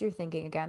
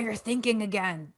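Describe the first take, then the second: First: It is said in a soft, gentle tone. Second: It is said in a harsh, irritated tone. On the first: The thinker is kindly accepting the lapse. The speaker calls it right. "in a softer voice" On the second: The thinker is scolding themselves. The speaker calls it wrong. "in like a more of a harsh way"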